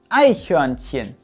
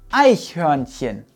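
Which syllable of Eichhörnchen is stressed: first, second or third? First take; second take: first; first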